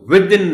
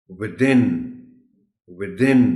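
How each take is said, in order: First: Within as "WITH-in", loud on the first syllable; WITH-in, falling away after a loud start; wrong stress on WITH. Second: Within as "wi-THIN", rising; short "wi", loud "THIN" in within; stress on the TH. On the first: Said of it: "نہیں کہیں گے". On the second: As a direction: punch the second syllable of within. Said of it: "ٹی ایچ پر stress ہے". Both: Shown as a demonstration.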